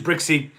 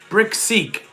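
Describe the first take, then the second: First: It is said fast and the k is dropped. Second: Both words are said slowly with a clear k. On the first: "I say it so fast with my accent, It sounds like bricksy because I'm not saying the k" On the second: "So brick seek"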